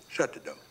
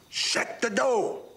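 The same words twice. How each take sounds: First: It is said at normal loudness. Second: It is said louder.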